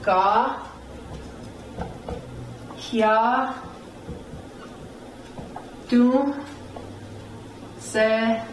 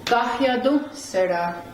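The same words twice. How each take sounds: First: "Ga, hya, Do será" with long pauses between syllables; teacher's separated "Ga, hya, Do será". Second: "Gahyadu será" joined up, "du" punched; whole-word "Gahyadu será" with emphasis on du; upstress on "du". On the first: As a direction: sound out "Ga, hya, Do será" one piece at a time. Teacher sounds out new word. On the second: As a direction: stress the du in "Gahyadu será", then drop. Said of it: "right here on the do". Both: Shown as a demonstration.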